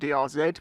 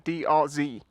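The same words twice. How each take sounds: First: The final letter is said the British way. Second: The final letter is said the American way. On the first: "it should be called a D R Z because I'm English" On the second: "I understand the Z part is Americanized"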